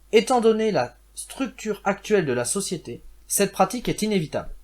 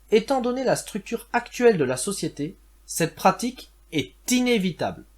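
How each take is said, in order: The two takes are said the same way.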